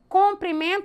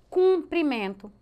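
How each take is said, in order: First: The first vowel is pronounced as o. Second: The first vowel is raised to u. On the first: "Com a O, a gente fala comprimento" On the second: "aí a gente eleva a vogal para cumprimento"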